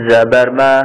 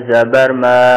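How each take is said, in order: The two takes are said the same way.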